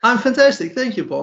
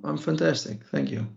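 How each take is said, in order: First: It sounds genuine and enthusiastic. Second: It sounds flat and unconvincing.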